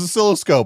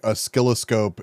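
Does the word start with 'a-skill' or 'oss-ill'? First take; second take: oss-ill; a-skill. First: The word begins with an 'oss-ill' sound. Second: The word begins with an 'a-skill' sound. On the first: This is the speaker's own usual way of saying it. The speaker calls it right. "I thought it was oscilloscope" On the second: This copies another person's odd way of saying it. The speaker calls it wrong. "He said it weird"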